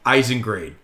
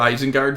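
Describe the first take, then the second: First: The last syllable sounds like 'grade'. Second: The last syllable sounds like 'gard'. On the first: The speaker calls it wrong. "it's close, but it's it's not" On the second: The speaker calls it right. "it's Isengard"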